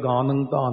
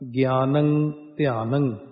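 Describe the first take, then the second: First: The words are said as gaan dhaan, without glide. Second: The words are said as gyaan dhyaan, with glide. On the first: The speaker calls it wrong. "ਉਹ ਗਲਤ ਪੜ੍ਹੀ ਜਾਂਦੇ ਨੇ" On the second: The speaker calls it right. "ਗੱਗੇ ਦੇ ਥੱਲੇ ਦੇਖੋ ਅੱਧਾ ਜਈਆ"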